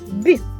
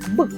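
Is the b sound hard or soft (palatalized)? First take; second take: soft; hard. First: The b sound is soft, palatalized. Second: The b sound is hard, not palatalized. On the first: "ми чуємо м'який звук «бі»" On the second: "ми чуємо твердий звук «б»"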